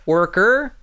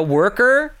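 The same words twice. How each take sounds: First: Worker with American R, a bit lighter; American R again. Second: Worker with a strong rolled American R. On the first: Repeating the word while demonstrating, lighter American R. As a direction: say worker once more with the American R. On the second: Showing how he fakes an American accent, heavy American R. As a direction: lean hard on the R in worker. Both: Shown as a demonstration. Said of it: "It's all just about adding R's".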